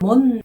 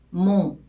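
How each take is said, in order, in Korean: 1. 끝에 분명한 자음 n 소리가 나요. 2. 코로 소리 내는 모음으로 끝나요. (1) "한국어의 니은처럼 몬 그렇게 발음하는 걸로 생각을 하시는 경우가 많은데요" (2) "이 오 발음을 끝을 코로 이렇게 내어서 발음해 주는 거예요"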